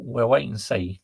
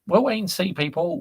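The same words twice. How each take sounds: First: Said in the usual way. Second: Playful tease. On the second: Real, not acted. Teasing the chat.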